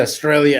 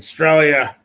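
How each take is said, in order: First: Said in the usual way. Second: Australia said in an Australian accent, stress on stra; Australia with an Aussie twang. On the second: Shown as a demonstration. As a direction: mimic the Aussie way of saying Australia. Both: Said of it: "they throw the Australia accent".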